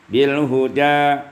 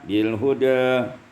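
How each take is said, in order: First: The final vowel is a fully open a. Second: The final vowel is raised slightly toward e. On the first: "Fathah yang pertama" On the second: "yang kedua taqlil"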